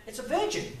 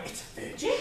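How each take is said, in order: First: Said in the usual way. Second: "virgin?" whispered as a stunned question; whispered disbelief. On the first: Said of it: "someone went". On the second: Retold or imitated. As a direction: breathe it out in shock, voiceless. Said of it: "And I went".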